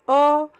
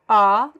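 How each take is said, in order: First: The vowel is said with a closed mouth. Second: The vowel is said with an open mouth. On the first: "the closed" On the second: "We have the open"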